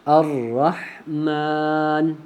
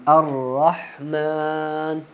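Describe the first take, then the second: Both takes have the same delivery.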